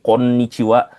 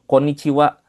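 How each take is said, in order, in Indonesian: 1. Bunyi n di tengah ditahan panjang dan sengau. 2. Bunyi n di tengah pendek dan cepat. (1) "dengungkan gitu ya" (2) "ada juga yang ringkas"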